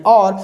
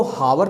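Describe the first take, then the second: First: "और" starting straight on the vowel; silent H. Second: "हावर" with the H sounded aloud; wrong pronunciation. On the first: English teacher showing students how hour is read, silent H. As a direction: say "और" for hour, dropping the H entirely. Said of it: "एच होता है silent". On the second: English teacher showing students how hour is not read, wrongly sounded H. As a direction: say "हावर" with a spoken H at the front. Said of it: "तो हम पढ़ते नहीं". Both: Shown as a demonstration.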